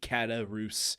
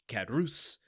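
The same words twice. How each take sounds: First: The name has an extra vowel sound. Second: The name has no extra vowel sound. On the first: The speaker calls it wrong. "I've been putting an extra vowel sound in Caderousse" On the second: The speaker calls it right. "when I believe it's just Caderousse"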